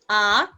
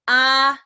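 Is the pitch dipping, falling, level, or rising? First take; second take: rising; level. First: The pitch rises upward. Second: The pitch stays high and level. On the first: "nada kedua" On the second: "Nada pertama"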